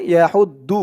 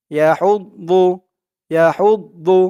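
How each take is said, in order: First: "ইয়া হৌদ দু" with a light, plain d in "দু"; wrong plain dal. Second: "ইয়া হৌদ দু" with heavy, full-mouthed "দু"; full-mouthed daad. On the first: Teacher warning of the mistake, light-d "দু". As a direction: say "দু" with a thin dal, not heavy daad. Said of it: "দু বলা যাবে না". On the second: Teacher showing the correct daad, heavy "দু". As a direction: fill the mouth on the d of "দু". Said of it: "মুখটা একটু ভরপুর হয়ে যাবে". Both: Shown as a demonstration.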